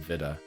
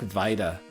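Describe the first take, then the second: First: It is pronounced the British way. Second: It is pronounced the American way. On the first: "Vita is British" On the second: "Vita is American"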